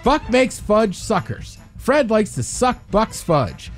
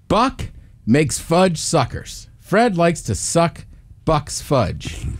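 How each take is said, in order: First: It is said fast. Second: It is said at a normal pace.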